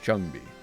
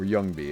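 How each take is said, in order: First: The name starts with a J sound. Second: The name starts with a Y sound.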